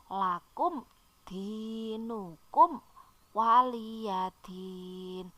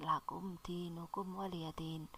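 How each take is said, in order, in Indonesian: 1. Frasa ini dibaca dengan pelan dan merata. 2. Frasa ini dibaca dengan cepat. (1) "tartil saja, yang yang pelan tapi benar" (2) "bukan baca cepat-cepat gitu ya"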